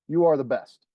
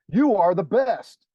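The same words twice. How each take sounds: First: It is said as a plain statement. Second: It is said as an exclamation.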